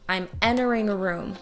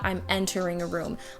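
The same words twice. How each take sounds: First: The T after the N is dropped. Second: The T after the N is pronounced. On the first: The speaker calls it right. "A T between an N and a vowel sound will actually get removed" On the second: The speaker calls it wrong. "not I'm entering a room"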